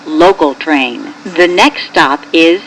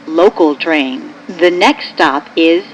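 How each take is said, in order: Both takes have the same delivery.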